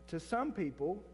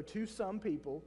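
First: Some leaned on with a rising tune; stress on some. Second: Said in the usual way. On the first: Shown as a demonstration. Preacher stressing some to the congregation. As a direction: lean into the word some. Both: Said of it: "And I emphasize the word "some".

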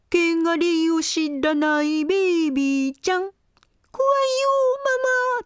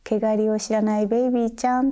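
First: Teasing taunt. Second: Mild teasing. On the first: Acted. Older lamb teases the little one. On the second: Retold or imitated. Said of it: "からかう".

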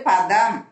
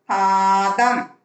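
First: பதம் with a short first "a"; short vowel. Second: பாதம் slowly, with a long held "aa"; long vowel. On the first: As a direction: keep the opening of பதம் brief. (பதம் குறிலாக, குறுக்கி) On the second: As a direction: stretch the first vowel of பாதம். (பாதம் நெடிலாக, நீட்டி) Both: Shown as a demonstration. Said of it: "துணைக்கால் போட்டு பாதம்".

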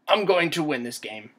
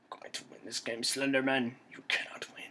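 First: Loud, firm declaration; emphatic, raised-voice resolve; determined vow. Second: Soft, secretive determination; muttered vow. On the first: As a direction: declare victory out loud to your opponent. Vowing to beat the monster. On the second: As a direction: mutter it under your breath at the enemy. Repeats the vow low at monster. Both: Real, not acted.

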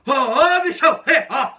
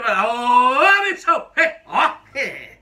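First: Loud call that breaks into a knowing laugh; greeting with a laugh. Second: Loud, drawn-out call to a workmate, with a smile; friendly shop-floor greeting. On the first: Worker showing the warning hello, loud with a sly laugh. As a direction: shout the hello, then snigger at the end. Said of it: "Quer ver, ó?". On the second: Worker demonstrating the friendly hello, called out loud with a smile. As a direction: hail a buddy across the line, grinning. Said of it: "Se tiver um sorrisinho no final". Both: Shown as a demonstration.

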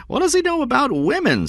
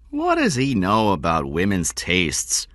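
First: Much higher, indignant repeated question; high, emphatic challenge falling on "women"; high-pitched indignation. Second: Said in the usual way. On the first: A narrator's reading. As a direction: push the question up high in protest. Stone repeats the question more emphatically.

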